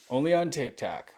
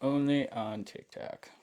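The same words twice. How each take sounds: First: Laughing. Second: Drawn out and dry, "Only on TikTok"; wry slow echo of the joke; slower, deadpan repeat. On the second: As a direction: say it again slowly, deadpan. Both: Real, not acted.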